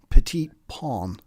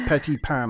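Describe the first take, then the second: First: The last word has a long open 'aw' vowel. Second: The last word has a short flat 'a' vowel. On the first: The speaker calls it right. "I should say uh, petit pain ... it's a pawn, not pan" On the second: The speaker calls it wrong. "I shouldn't say petit pan"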